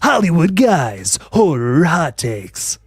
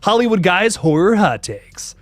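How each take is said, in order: First: It is said in a hyped DJ voice. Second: It is said in his normal voice.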